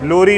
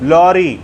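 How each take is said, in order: First: The first vowel is closer, as in 'low'. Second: The first vowel is open, as in 'law'. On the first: The speaker calls it wrong. "लोरी नहीं" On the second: The speaker calls it right. "लॉरी बोलना है"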